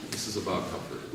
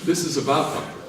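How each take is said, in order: First: "This is about comfort" hushed and falling; soft repeat. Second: "this" raised and firm; stress on this. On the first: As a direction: drop to a near murmur. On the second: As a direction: point at the word "this". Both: Shown as a demonstration.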